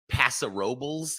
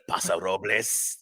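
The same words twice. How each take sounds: First: It is said with an anglicized English pronunciation. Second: It is said with a Spanish-style pronunciation.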